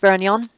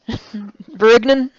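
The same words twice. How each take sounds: First: It is said with a French-style pronunciation. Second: It is said with a broad Texas drawl. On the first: "that's how you pronounce this" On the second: "you want to sound like a hillbilly"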